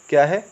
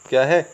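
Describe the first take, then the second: Both takes have the same delivery.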